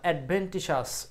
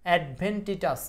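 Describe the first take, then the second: First: The last syllables are said with an 'sh' sound. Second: The last syllables are said with a 't' sound. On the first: The speaker calls it right. "এটার উচ্চারণ হলো অ্যাডভেন্টিশাস।" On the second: The speaker calls it wrong. "এটা আসলে উচ্চারণটা কি?"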